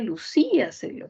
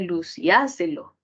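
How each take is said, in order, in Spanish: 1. El acento cae en la sílaba í. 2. El acento cae en la sílaba a. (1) "la palabra no sería lucíaselo" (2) "la I y fuese en la A, ... sino sería luciáselo"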